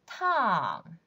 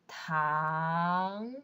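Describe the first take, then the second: First: The pitch falls sharply from high. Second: The pitch rises from mid to high. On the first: "Fourth tone" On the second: "Second tone"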